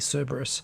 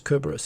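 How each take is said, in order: First: The name is said with English pronunciation. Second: The name is said with Latin pronunciation. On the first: The speaker calls it wrong. "most English speakers say Cerberus because English is stupid" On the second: The speaker calls it right. "I believe the Latin pronunciation is Cerberus"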